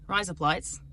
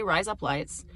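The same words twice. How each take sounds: First: "Rise up lights" said like "razor blades" in Australian; Australian accent demo on "Rise up lights". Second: Said in the usual way. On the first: Shown as a demonstration. Think you're saying razor blades, "Rise up lights" in an Australian accent. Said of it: "in your mind that you're saying razor blades". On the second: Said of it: "Just say".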